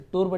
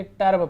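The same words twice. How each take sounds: First: "टर्ब" misread as "turb" with an oo vowel, like तूर्ब; wrong reading. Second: "टर्ब" with a short a vowel, like "tarb"; correct reading. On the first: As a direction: give "टर्ब" a wrong u sound. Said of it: "इसे टर्ब नहीं पढ़ेंगे". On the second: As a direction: stress "टर्ब" with u read as "अ". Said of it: "यू के साथ आ रहा है तो अ पढ़ेंगे". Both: Shown as a demonstration.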